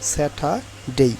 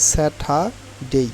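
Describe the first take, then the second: No difference in how they are said.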